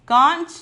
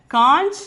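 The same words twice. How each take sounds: The two takes are said the same way.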